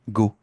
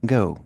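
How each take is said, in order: First: The vowel is a single pure vowel. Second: The vowel glides as a diphthong. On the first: The speaker calls it wrong. "Un Français va prononcer ça to go" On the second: The speaker calls it right. "Ça se prononce en diphtonguant"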